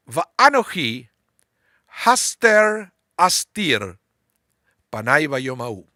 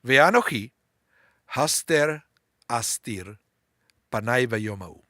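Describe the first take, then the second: First: Slow chanted Hebrew verse, "haster astir" drawn out; Hebrew recitation. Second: Slow dictation reading, "haster" and "astir" split apart; slow school dictation. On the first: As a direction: read the Hebrew slowly so they hear "haster". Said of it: "I'm gonna read it. The Hebrew". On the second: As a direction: read it again, word by word, "haster astir". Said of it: "so I will read it again". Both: Shown as a demonstration.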